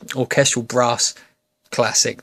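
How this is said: It is said in a southern English accent. "this southern pikey accent. So now"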